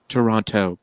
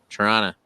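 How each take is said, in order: First: All syllables are pronounced carefully and fully. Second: It is clipped short in a casual Canadian way.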